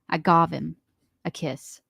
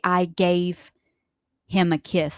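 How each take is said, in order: First: The vowel in gave sounds like in got. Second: The vowel in gave sounds like in day. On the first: This is how a friend says it. The speaker calls it wrong. "She says gov" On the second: This is the usual way to say it. The speaker calls it right. "She doesn't say I gave him a kiss"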